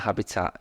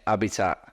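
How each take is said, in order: First: It is said in the speaker's ordinary accent. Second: It is said in a put-on Mancunian accent.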